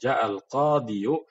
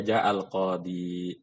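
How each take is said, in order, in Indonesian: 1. Kata terakhir diakhiri dengan suku kata 'yu' penuh. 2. Kata terakhir diakhiri dengan 'i' pendek yang biasa. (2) "kita sukunin aja"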